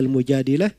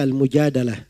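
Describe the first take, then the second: First: The vowel after the d-sound is 'i'. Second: The vowel after the d-sound is 'a'. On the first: "Bisa dibaca Al-Mujadilah" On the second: "bisa dibaca Al-Mujadalah. Ya dua-duanya boleh"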